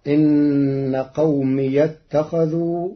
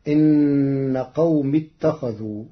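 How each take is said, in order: First: قومي with an open ya, slow; Warsh reading. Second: قوم without the ya sound; Hafs reading. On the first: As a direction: say قومي with a clear open ya before اتخذوا. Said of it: "فتصير". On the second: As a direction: say قوم ending short. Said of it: "بفتح ياء الإضافة وصلا". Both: Shown as a demonstration.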